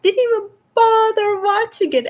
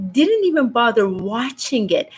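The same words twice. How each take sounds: First: Much higher, "bother" peaking then falling; exasperated repeat. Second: Said in the usual way. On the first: Real, not acted. Host to viewers, on light workers who skipped it, exasperated and much higher. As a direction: throw it up high in disbelief.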